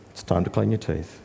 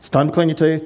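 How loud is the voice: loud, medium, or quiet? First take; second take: quiet; medium. First: It is said in a low, calm voice. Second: It is said in a slightly raised voice. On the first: The instruction is given calmly. The speaker calls it right. "loving, low, controlled voice" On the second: The instruction is repeated after being ignored. The speaker calls it wrong. "Raise voice slightly"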